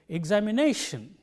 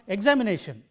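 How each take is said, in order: First: The stress is on the fourth syllable. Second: The stress is not on the fourth syllable. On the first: The speaker calls it right. "but it is" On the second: The speaker calls it wrong. "It is not"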